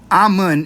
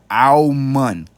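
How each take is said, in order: First: The name begins with a plain 'ah' sound. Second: The name begins with a rounded 'om' sound. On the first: The speaker calls it wrong. "Amun is how you pronounce it in English" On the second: The speaker calls it right. "like how you would say your Om, but put the A in front of it"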